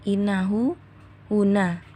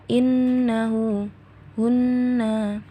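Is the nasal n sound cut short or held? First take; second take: cut short; held. First: The n is said quickly without a nasal hold. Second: The n is nasalized and held for two counts. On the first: The speaker calls it wrong. "nggak langsung" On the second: The speaker calls it right. "tapi innahu hunna"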